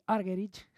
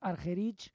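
First: The name is pronounced the English way. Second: The name is pronounced the original way. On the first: This is how English-speaking countries usually say it. "en los países anglosajones suelen decir Argerich" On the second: This is apparently the proper pronunciation. "la pronunciación parece ser que es Argerich"

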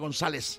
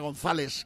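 First: The z is pronounced like an s. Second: The z is not pronounced like an s. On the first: This is how it is said in a seseo region. "practicas el seseo, sería González" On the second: This is how it is said in Spain. "en España sería González"

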